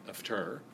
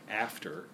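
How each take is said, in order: First: The stress falls on the second syllable. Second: The stress falls on the first syllable. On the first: The speaker calls it wrong. "rather than" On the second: The speaker calls it right. "It starts with a troche"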